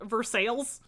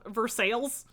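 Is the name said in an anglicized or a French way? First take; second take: anglicized; anglicized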